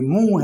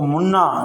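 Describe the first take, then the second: First: The n is only a nasal vowel sound. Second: The n is pronounced as a full consonant. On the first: The speaker calls it right. "ये मुंह है" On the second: The speaker calls it wrong. "इसको मुन्ना नहीं पढ़ेंगे"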